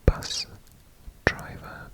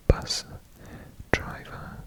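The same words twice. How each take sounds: The two takes are said the same way.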